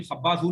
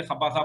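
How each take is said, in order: First: खब्बाजू with a final u, the wrong form; ending खब्बाजू on an u sound. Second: खब्बाजा with a final a, the right form; ending खब्बाजा on an a sound; correct ending -a. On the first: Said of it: "खब्बाजू नहीं बोलेंगे". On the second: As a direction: say खब्बाजा ending in a, lower and settled. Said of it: "खब्बाजा बोलेंगे". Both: Shown as a demonstration.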